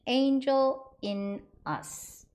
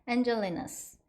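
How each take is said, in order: First: It is said slowly with the words apart. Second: It is said fast with the words linked. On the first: "천천히 발음" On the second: "빨리 발음하시면"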